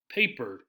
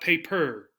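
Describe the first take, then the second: First: The stress is on the first syllable. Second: The stress is on the second syllable. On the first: The speaker calls it right. "we do stress the first part" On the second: The speaker calls it wrong. "not paper"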